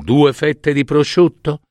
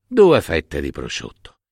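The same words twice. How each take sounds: First: High, questioning "due fette di prosciutto"; tentative question. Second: "Due fette di prosciutto" settling down to a falling end; agreeing repetition. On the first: One spouse proposing tomorrow's starter to the other, tentative question. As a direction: suggest "due fette di prosciutto" with raised, unsure pitch. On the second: One spouse accepting the other's menu idea, agreeing repetition. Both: Acted.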